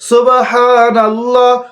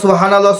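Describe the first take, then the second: First: The phrase is said slowly and attentively. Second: The phrase is said quickly and hurriedly. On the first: It is said with care and attention. The speaker calls it right. "এইভাবে আঙ্গুল কর গুনে গুনে গুনে গুনে একশতবার পড়বেন" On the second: It is careless and disrespectful. The speaker calls it wrong. "এইভাবে তাড়াহুড়া করবেন না"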